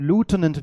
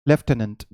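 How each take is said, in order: First: The first syllable sounds like 'loo'. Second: The first syllable sounds like 'left'. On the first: "American English है" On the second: "आपने हमेशा सुना होगा लेफ्टिनेंट"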